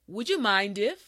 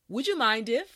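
No difference in how they are said.

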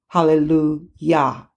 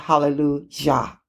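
First: The middle consonant is a Y sound. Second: The middle consonant is a J sound. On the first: The speaker calls it right. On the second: The speaker calls it wrong. "not hallelujah"

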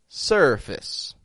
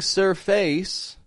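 First: The second syllable has a reduced schwa vowel. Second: The second syllable has a full vowel. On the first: The speaker calls it right. "but surface" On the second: The speaker calls it wrong. "I'm not saying surface"

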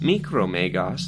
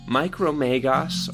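First: The name is said with French pronunciation. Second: The name is said with English pronunciation.

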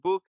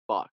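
First: The vowel is a rounded 'oo' sound. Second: The vowel is an open 'uh' sound. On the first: The speaker calls it wrong. "definitivamente el que sigue no es bug" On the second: The speaker calls it right. "es bug"

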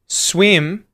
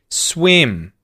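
First: The voice goes up on the word. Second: The voice goes down on the word. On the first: It ends a question. "what happens with the word swim at the end of the sentence that's now a question?" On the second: It ends a statement. "You start high and go low"

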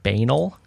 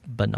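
First: The word is said rhyming with anal. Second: The word is said not rhyming with anal. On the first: The speaker calls it wrong. "it does not rhyme with anal" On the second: The speaker calls it right. "Instead of banal"

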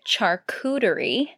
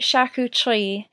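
First: It is said with simplified English sounds. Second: It is said with full French sounds. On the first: The way English speakers adapted it. "people broke it down and called it charcuterie, missing quite a few of the like very important sounds" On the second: The original way in its source language. "they pronounce it charcuterie, very French"

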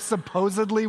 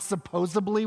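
First: The word is said with a D sound. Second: The word is said with a B sound. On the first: The speaker calls it right. "with a D" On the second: The speaker calls it wrong. "with a B"

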